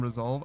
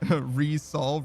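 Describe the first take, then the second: First: It is said ri-zolve, with a buzzed z. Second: It is said re-solve, with a hissed s. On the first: Settle or sort it out. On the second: Solve it a second time.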